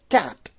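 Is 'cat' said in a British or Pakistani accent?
British. The word is said in a British accent. "that would be like the pronunciation of British people"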